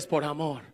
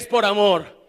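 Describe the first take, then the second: First: It is said loudly. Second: It is shouted at full volume.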